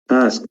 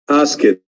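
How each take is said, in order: First: The ending is a short 't' sound. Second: The ending is an extra 'id' syllable. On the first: The speaker calls it right. "we pronounce ed as te sound" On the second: The speaker calls it wrong. "This is wrong"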